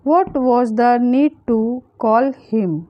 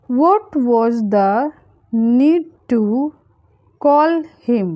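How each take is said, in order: First: Said in the usual way. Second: Slow, with pauses between chunks; phrase by phrase. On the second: Shown as a demonstration. Teacher modelling a translation for learners, phrase by phrase. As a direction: split it up for learners to follow.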